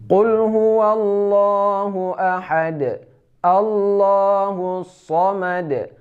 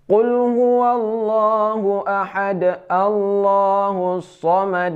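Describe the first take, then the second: First: Each verse ends with a clear stop before the next. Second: The verses run on without a clear stop between them. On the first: The speaker calls it right. "itu cara yang benar, walaupun cepat" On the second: The speaker calls it wrong. "Cara yang salah"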